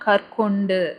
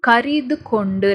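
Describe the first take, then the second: First: The word is said in a shortened form. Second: The word is said in its full form. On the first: "பேச்சு வழக்குல இங்க எப்படி use பண்ணிக்கிறாங்கன்னா" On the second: "கரிது கொண்டு நல்லா பாருங்க"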